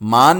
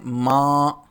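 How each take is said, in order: First: The word ends with a full n consonant. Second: The word ends in a nasalized vowel only. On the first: The speaker calls it wrong. "मान नहीं पढ़ते उसको" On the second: The speaker calls it right. "क्या पढ़ते हैं? माँ"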